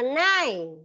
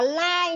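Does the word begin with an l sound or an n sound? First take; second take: n sound; l sound. First: The word begins with an n sound. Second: The word begins with an l sound. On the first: The speaker calls it right. "đọc là nai" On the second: The speaker calls it wrong. "Không đọc là lai nhá"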